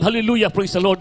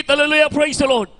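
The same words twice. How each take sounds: First: Said in the usual way. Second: Hallelujah, praise the Lord shouted high and loud. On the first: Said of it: "ang pagsinggit ng". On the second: Shown as a demonstration. Preacher shows the congregation how to shout it, loud and high. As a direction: cry it out full voice.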